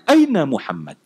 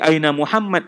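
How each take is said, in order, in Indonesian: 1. Pertanyaan ini diajukan dengan nada lembut dan terharu. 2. Pertanyaan ini diajukan dengan nada bermusuhan dan agresif. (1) "Intonasi dia berubah dah" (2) "Kalau tadi Aina Muhammad, li'annani ana uqatiluhu wal'an"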